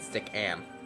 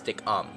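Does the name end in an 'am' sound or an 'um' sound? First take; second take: am; um. First: The last syllable has an 'am' vowel. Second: The last syllable has an 'um' vowel. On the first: This is how the speaker thinks it is said. The speaker calls it right. "I get stickam" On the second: This is how other people say it. The speaker calls it wrong. "people say it's stickum, but it's am, not um"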